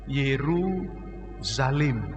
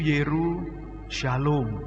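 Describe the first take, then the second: First: The second part is pronounced as zalim. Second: The second part is pronounced as shalom. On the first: A cruel society that rejects goodness. "Paham kan arti kata zalim?" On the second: A society filled with peace and well-being. "yaitu Yeru Shalom"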